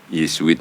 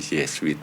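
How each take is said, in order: First: The ending is pronounced the ordinary Indonesian way. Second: The ending is pronounced like English 'sweet'. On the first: The plain name of the religious order. "memelesetkan Yesuit" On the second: A playful twist so it sounds less serious. "menjadi Yesuit ... supaya don't too serious"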